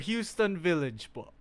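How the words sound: It is said with an American accent. The listener did not understand it. "they mocked my fucking American accent"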